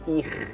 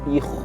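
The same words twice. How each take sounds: First: The syllable sounds light and thin. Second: The syllable sounds heavy and thick. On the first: The speaker calls it right. "Rahangnya tipis di sini" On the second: The speaker calls it wrong. "bukan lagi"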